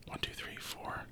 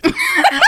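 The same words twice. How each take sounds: First: Counting under the breath, barely voiced; whispered counting. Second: Counting high, breaking into laughter; laughing count. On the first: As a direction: whisper the count so nobody hears. Groom silently counting at the altar. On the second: Retold or imitated. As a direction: count while cracking up. Recounting through laughter.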